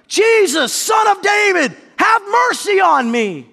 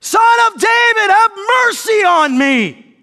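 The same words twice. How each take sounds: First: High, drawn-out desperate plea; shouting. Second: Full-force high, drawn-out cry; shouting louder. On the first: Blind beggar calling to Jesus from the roadside, shouting. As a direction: shout it slowly across a crowd. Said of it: "he began shouting". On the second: Blind beggar refusing to be silenced, shouting louder. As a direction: shout it even harder, stretching every word. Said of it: "he only shouted louder". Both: Acted.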